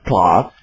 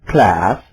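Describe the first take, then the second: First: It is said with a British accent. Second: It is said with an American accent.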